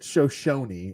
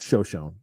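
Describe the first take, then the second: First: It is pronounced the standard way. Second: It is pronounced the local Buffalo way. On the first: The speaker calls it right. "Shoshone is the right way to say it" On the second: The speaker calls it wrong. "we'd always call it Shoshone because we're idiots and we're from Buffalo"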